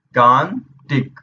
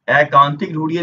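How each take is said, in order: First: Drawn-out pronunciation. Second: Said in the usual way. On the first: Shown as a demonstration. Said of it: "जो हम लोग उच्चारण करते हैं वही लिखते हैं".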